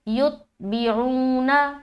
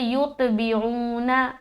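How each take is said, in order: First: The t sound stops cleanly without an echo. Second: The t sound bounces with an echo. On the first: The speaker calls it right. "तो सही कैसे पढ़ेंगे?" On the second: The speaker calls it wrong. "ऐसा करे तो कलकला हो जाएगा"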